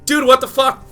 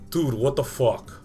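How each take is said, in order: First: It is said in a high voice. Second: It is said in a very low voice.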